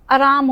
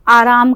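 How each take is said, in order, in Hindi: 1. 'aa' स्वर छोटा करके बोला जाता है। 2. 'aa' स्वर लंबा खींचकर बोला जाता है।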